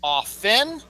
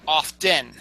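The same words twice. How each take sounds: First: "Often" as OFF-en, rising at the end; careful "Often", OFF-en with no T; silent T. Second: "often" as OFF-ten, slowly; slow "often" with a spoken T; sounded T. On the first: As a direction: say "Often" without any T. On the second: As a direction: pronounce the T in "often". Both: Shown as a demonstration. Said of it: "The T is silent".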